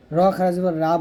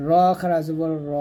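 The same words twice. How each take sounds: First: Final "রা" with an open "aa" vowel; wrong thin raa. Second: Final "র" as a rounded "ro", held long; correct heavy ro. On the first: Teacher shows the forbidden reading, open thin "রা". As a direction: say "রা" thin and open, not rounded. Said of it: "বলা যাবে না". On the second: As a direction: stretch "র" with a thick o-like vowel. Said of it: "র বলতে হবে". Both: Shown as a demonstration.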